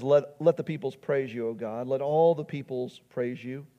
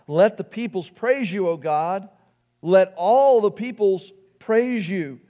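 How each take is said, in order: First: Said in the usual way. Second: Psalm cried out with raised voice; crying out. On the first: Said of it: "He says". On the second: Acted. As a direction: call it out to God in praise. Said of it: "we cry out".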